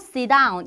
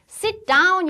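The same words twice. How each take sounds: First: It is said quickly with the T dropped. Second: It is said at normal speed with a clear T. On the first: "빠르게 발음하면 sit down 이렇게 얘기하죠" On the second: "sit down 이라고 얘기해도 되고"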